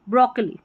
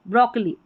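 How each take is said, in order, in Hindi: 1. पहला स्वर छोटा रहता है। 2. पहला स्वर छोटा रहता है।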